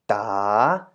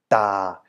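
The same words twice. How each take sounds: First: The pitch dips and then rises. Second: The pitch stays low throughout. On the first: "rising tone" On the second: "the low or deep tone"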